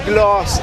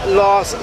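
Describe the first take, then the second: Both takes have the same delivery.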